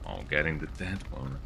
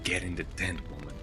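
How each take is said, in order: First: It is said in a playful, teasing tone. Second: It is said in a stern, commanding tone.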